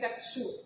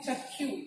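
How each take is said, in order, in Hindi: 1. इसका मानक हिंदी उच्चारण है। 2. इसका संयुक्त व्यंजन 'khy' जैसा सुनाई देता है, उड़िया शैली में। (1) "हिंदी उच्चारण हम इसको क्या कहते हैं" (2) "उड़िया उच्चारण क्या करते हैं"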